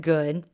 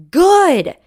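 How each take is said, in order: First: Said in the usual way. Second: Loud, high snapped yell. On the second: Retold or imitated. Mom snapping back at upset son, loud yell. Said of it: "I apologize for yelling".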